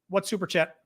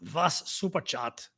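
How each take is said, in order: First: It is said in the speaker's ordinary accent. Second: It is said in a put-on German accent.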